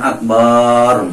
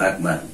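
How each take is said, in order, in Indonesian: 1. Sebuah vokal dalam kata itu dibaca panjang. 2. Vokal-vokal dalam kata itu tetap dibaca pendek. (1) "jangan jangan akbar misalkan, jangan" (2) "tapi Allahu Akbar"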